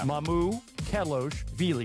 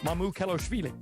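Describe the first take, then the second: First: The name is said slowly in three separate parts. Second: The name is said quickly as one smooth word. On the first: "think of his pronunciation in three parts" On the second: "and then you just speed it up"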